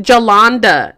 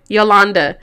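First: "Jolanda" begun with a J sound; name said with J. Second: "Yolanda" begun with a Y glide; name said with Y. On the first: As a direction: say "Jolanda" with J, not Y. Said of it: "It's not even a J". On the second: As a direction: say "Yolanda" with Y, not J. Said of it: "No, Y". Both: Real, not acted.

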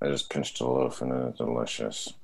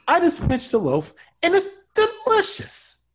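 First: Low, soft, lifeless line read; dead soul voice. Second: Much higher, bright gleeful read. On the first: Acted. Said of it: "that was my happy bread voice". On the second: Shown as a demonstration. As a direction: sell the bread with pure glee. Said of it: "You see how I did it?".

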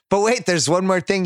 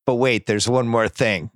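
First: Higher-pitched mock disbelief; incredulous echo. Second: Lightly voiced measured cop; cop breaking bad news. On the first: Imagined father echoing the cop's words, acted incredulity. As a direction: throw the phrase back in disbelief. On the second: Cop to the father after a pause, lightly acted gravity.

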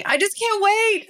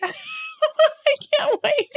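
First: High, giddy squeal of excitement. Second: High, slow giggly repeat; giggling. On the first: Host gushing to listeners about her hookup, giddy squeal. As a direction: squeal it like you can barely hold it in. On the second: Host repeating her excitement to listeners, giggling high. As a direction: laugh your way through the words. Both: Real, not acted.

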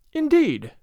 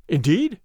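First: INDEED high, then falling; exclaimed reply. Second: INDEED as a rising question; questioning reply. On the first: Mother-in-law replies to the father's news, exclaiming with a fall. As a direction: exclaim "Indeed" from a high pitch, dropping away. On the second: Father questions his son's report, rising on "Indeed". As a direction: ask "Indeed" with the pitch lifting at the end. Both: A narrator's reading.

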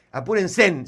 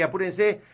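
First: "apúrense" drawn out with an added final n; jokey plural ending. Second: "apúrense" with the ordinary ending; plain pronunciation of apúrense. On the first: Host joking to many listeners, "apúrense" stretched into "apurensén". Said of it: "sí es plural". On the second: Host urging the audience to buy tickets, "apúrense" ending in -se. Usual take before the plural joke. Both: Shown as a demonstration.

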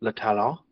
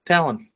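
First: "le talon" said the French way, broad ah vowels, final n dropped; French "le talon" with open vowels and no final n; French pronunciation. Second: "talon" said the English way, "TAL-un" with a short a; "talon" as an English word, first syllable stressed; English pronunciation. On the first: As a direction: say "le talon" as a French speaker would, "luh tah-LAH". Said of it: "French for heel". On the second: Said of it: "the English word for claw". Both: Shown as a demonstration.

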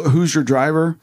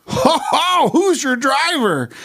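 First: Said in the usual way. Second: Much higher, slow, put-on improv voice; hammed-up character voice. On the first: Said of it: "you know the whole". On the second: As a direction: ham it up as a goofy passenger climbing into the car. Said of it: "I get in, I go".

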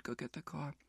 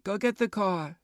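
First: Much softer, lower, trailing off; quiet tired request; hushed and worn out. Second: Said in the usual way. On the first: Retold or imitated. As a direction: barely push the words out, exhausted. Retold order, fading exhausted.

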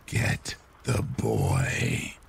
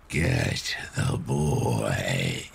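First: Low, very slow raspy whisper; breathy rasp. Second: Low, very slow ghostly rasp; breathy rasp. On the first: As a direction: drag it out in a wispy rasp. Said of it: "in a very raspy, wispy voice". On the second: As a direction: stretch it out, ghostly and raspy. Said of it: "It was much louder this time". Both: A narrator's reading.

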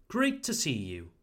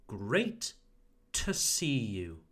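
First: Said in the usual way. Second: "great" rising, then "to see you" drawn out slowly. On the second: Shown as a demonstration. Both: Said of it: "So slowly".

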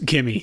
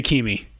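First: Said in the usual way. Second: "Kimi" with a long ee, KEE-mee; co-host's pronunciation. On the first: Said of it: "I do love how you pronounce". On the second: Retold or imitated. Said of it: "You say Kimi".

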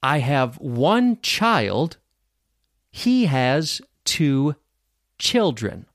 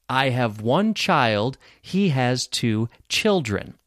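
First: Very slow, word groups set apart by pauses; repeat-after-me model. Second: Slow but joined-up, slightly lower; repeat-after-me model. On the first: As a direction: model it slowly for learners, pausing before the last word. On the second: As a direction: say it slowly as connected sentences for learners. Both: Shown as a demonstration. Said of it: "repeat after me".

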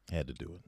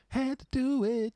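First: Said in the usual way. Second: High falsetto. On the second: Shown as a demonstration.

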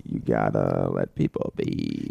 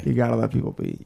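First: Much lower, slow and drawn out; deep slow voice. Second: Said in the usual way. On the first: Pretend. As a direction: drop way down and drag it. Slow low mock-solemn take. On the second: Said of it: "repeating the episode title".

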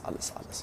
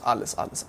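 First: "alles, alles" whispered almost without voice, much softer. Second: Said in the usual way. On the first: Retold or imitated. Telling a friend how the cop emptied every pocket, whispered. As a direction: let "alles, alles" fade to a bare whisper.

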